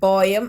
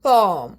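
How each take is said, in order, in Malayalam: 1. "poem" എന്ന വാക്കിന് രണ്ട് അക്ഷരങ്ങളുണ്ട്, po-em. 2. "poem" എന്ന വാക്കിന് ഒരു അക്ഷരമേയുള്ളൂ, pome. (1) "പോയം അല്ല" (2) "പോം എന്ന് പറയും"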